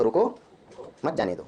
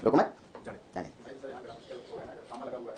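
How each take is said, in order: First: रुको on its own, a break, then मत जाने दो together; pause after रुको. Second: रुको मत together, a break, then जाने दो; pause after मत. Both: Shown as a demonstration. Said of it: "थोड़ा पॉज बदल दो".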